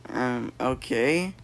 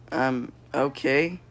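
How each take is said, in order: Both takes have the same delivery.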